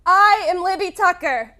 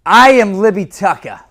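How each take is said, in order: First: Loud cocky echo of the coach; brash bravado. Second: Loud, higher cocky boast; brash bravado. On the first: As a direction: say it like you own it. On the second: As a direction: own the whole room. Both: Shown as a demonstration. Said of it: "I'm gonna walk you right through this".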